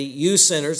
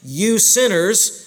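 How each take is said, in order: First: Said in the usual way. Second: "you sinners" said slowly, higher and louder, leaning on "you"; slow emphatic accusation. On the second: Shown as a demonstration. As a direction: drag out "you sinners" with heavy weight on "you". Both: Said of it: "notice the offense again".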